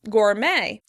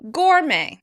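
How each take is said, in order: First: The stress is on the second syllable. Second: The stress is on the first syllable. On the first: This is how American speakers say it. "In American English, the word will be stressed on the second syllable" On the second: This is how British speakers say it. "In British English, the word will be stressed on the first syllable"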